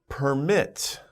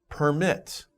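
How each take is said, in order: The two takes are said the same way.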